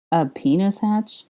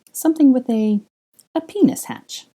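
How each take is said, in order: First: Incredulous. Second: Much higher and louder, rising into a squeak; an excited high pitched proposal; giddy. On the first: Draco repeating in disbelief. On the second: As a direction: blurt it out, climbing in pitch. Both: A narrator's reading.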